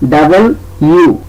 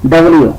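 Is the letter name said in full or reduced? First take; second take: full; reduced. First: Both parts are said slowly and fully. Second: It is said quickly with the parts run together. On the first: "সেটা সঠিক উচ্চারণ হবে ডাবল ইউ" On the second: "যদি আমরা দ্রুত বলি তাহলে বলবো ডাব্লিউ"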